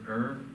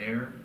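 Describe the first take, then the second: First: The word rhymes with 'her'. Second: The word rhymes with 'hair'. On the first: "so it's the word er" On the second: "or you can pronounce it as air as well"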